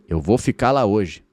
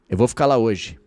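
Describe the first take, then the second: The two takes are said the same way.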